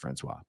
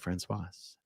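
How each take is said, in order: First: The name ends without a final consonant sound. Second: The name ends with an audible final consonant. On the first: This is how most Americans say the name. "most Americans just say her name is Francois" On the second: This marks the name as a woman's name. "but I say Francoise"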